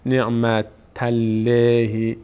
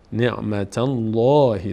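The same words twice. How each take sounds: First: The 'l' in Allah is thin and light. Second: The 'l' in Allah is full and heavy. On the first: The speaker calls it wrong. "نمیگیم نعمت الله" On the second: The speaker calls it right. "پر خوانده میشه، دهان به سمت بالا باز میشه"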